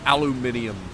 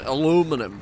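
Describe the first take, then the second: First: It is said with five syllables, ending -minium. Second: It is said with four syllables, ending -minum. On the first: The speaker calls it wrong. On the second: The speaker calls it right.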